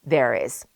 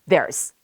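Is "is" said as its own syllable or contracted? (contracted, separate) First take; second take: separate; contracted. First: Both words are said, lightly and briefly. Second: The two words merge into one quick syllable. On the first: "비교적 약하고 짧게" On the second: "더 빨리면은"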